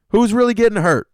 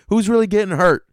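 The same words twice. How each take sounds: First: Louder and higher still; comic defender repeating the question even louder; bigger exasperated outcry. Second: Louder, higher protest; comic defender shouting up for dads; exasperated outcry. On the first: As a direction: push the repeat even harder. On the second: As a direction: plead the dads' case with exasperation. Dad defender rant. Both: Acted.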